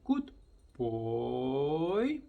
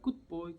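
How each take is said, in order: First: It is said in a lively, varied way. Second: It is said in a flat, bored way.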